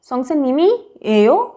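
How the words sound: The final syllable goes up high in pitch. It asks a question. "थोड़ा सा उसको हाई कर रही हूँ।"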